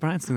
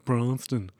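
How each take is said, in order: First: The name is said in a normal voice. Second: The name is said in a dumb voice. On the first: The speaker names the school. "I went to Branston" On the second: Others mock the school's name. "they repeat back the name... in a dumb voice"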